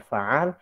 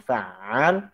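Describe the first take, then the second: First: The middle consonant is single and short. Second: The middle consonant is doubled and held long. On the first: The speaker calls it wrong. "tapi dibaca fa'al, kita telah mengurangi satu huruf" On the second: The speaker calls it right. "Yang saya baca dengan fa'al"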